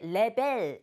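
It is said with a Korean-style pronunciation. The speaker calls it wrong. "우리 보통 발음할 때 레벨 이렇게 발음하는데"

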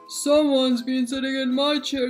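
It is said in a huge, deep bear growl.

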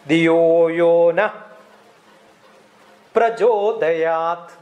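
The pause falls after the word na. The prayer asks to be enlightened within. The speaker calls it right. "That's how it should say. Diyo-yo na"

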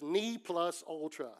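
The phrase is said with an American pronunciation. The speaker calls it wrong. "they had a pronunciation in American"

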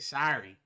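It is said with an American accent. "How do Americans say sorry? They say sorry"

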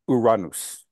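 It is said with a Spanish pronunciation. The speaker calls it right. "the Spanish pronunciation is closest to the ancient Greek"

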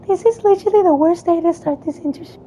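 It is said in a put-on girl voice.

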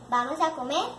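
It is said as a question, rising.

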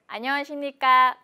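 The pitch stays fairly level throughout. The speaker calls it right. "là câu thứ hai đúng không ạ? Khi bạn đọc không lên xuống nhiều về ngữ điệu thì sẽ thấy câu nói tự nhiên hơn"

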